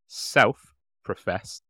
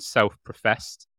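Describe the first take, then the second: First: Self-professed drawn out very slowly, every syllable weighted; stressed self-professed. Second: Said in the usual way. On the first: Shown as a demonstration. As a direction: lean hard on self-professed, slow and pointed. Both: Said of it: "emphasis on the second one".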